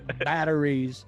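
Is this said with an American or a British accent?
American. The t is a soft d-like sound. This is how the speaker says it. "I say batteries"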